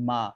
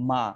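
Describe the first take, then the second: The two takes are said the same way.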